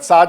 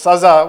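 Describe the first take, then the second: First: The middle consonant is a j sound. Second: The middle consonant is a z sound. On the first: It names the journalists' association. The speaker calls it right. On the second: It sounds like a word meaning punishment. The speaker calls it wrong. "which some people pronounce as Saza, which means punishment"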